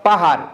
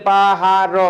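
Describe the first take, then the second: First: Said in the usual way. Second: "পাহাড়" slowly as পা, হা, ড়; three separate open pieces of "পাহাড়"; broken into syllables. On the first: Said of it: "যেমন মনে করো পাহাড়". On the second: Shown as a demonstration. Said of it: "যদি তুমি স্বরান্ত যাও". ("পাহাড়" টুকরা করে: পা, হা, ড়)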